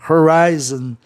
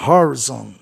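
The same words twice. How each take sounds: First: The stress is on the second syllable. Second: The stress is on the first syllable. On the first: The speaker calls it right. "o I tivesse o som de I aí" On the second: The speaker calls it wrong. "deveria ser proparoxítona"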